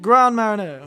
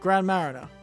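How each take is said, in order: First: The name is said with French pronunciation. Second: The name is said with English pronunciation.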